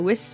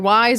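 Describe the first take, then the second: First: The vowel is short, rhyming with fizz. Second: The vowel is long, rhyming with wise. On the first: The speaker calls it wrong. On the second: The speaker calls it right.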